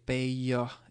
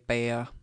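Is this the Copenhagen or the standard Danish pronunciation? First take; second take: standard; Copenhagen. First: It is said with a standard Danish pronunciation. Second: It is said with a Copenhagen pronunciation. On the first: This is the most correct form. "and correct Danish, I'm sure you'd you'd say bager instead" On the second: This is the everyday capital-city form. "I think I would say bayer, um, but that might be uh, a Copenhagen pronunciation"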